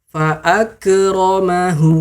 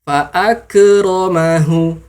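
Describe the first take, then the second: No difference in how they are said.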